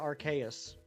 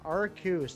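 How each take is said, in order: First: The ending sounds like 'Deus'. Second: The ending does not sound like 'Deus'. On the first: The speaker calls it right. "I think it should actually be pronounced uh, Arceus, like Deus Ex Machina" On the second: The speaker calls it wrong. "That is a popular pronunciation"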